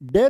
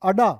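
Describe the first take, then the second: First: The retroflex d starts the name, followed by e. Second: A vowel comes before the retroflex d. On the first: The speaker calls it wrong. "डे नहीं" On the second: The speaker calls it right. "इसको बोलना है अडा"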